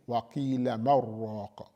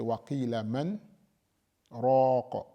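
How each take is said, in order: First: The n merges into r with no break. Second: A full stop with a breath separates man and raq. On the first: "So you don't say" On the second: "You don't take a breath... because that is a stop"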